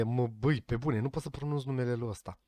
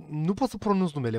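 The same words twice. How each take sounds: First: Muttered under breath. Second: Said in the usual way. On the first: Real, not acted.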